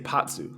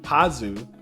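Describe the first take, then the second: First: The name has a t sound before the s. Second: The name has no t sound before the z. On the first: This is how the English dub says it. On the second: This is how the Japanese version says it.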